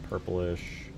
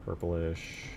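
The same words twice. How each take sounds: The two takes are said the same way.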